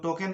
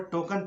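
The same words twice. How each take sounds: First: टोकन ending in a clear "ken"; mistaken e vowel. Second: टोकन ending in "kun"; correct schwa. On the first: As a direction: quote the wrong टोकन, "to-ken" with open e. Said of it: "कुछ लोग टोकन पढ़ता है जो गलत है". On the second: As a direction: model टोकन with "uh" in the last syllable. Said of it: "यहाँ पर टोकन पढ़ना है". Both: Shown as a demonstration.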